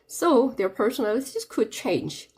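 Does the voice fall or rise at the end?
fall. The pitch falls at the end. The sentence is finished. The speaker calls it right. "change는 이제 마침표니까 밑으로 끊어야 돼요"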